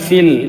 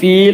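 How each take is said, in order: First: The vowel is kept short. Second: The vowel is drawn out long. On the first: The speaker calls it right. "നീട്ടാനുള്ള അക്ഷരത്തിന് സുക്കൂനോ ശബ്ദ വന്നാൽ പിന്നെ നീട്ടൂല" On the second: The speaker calls it wrong. "കൂട്ടി വായിക്കുമ്പോൾ ഫീൽ എന്ന് വായിക്കൂല"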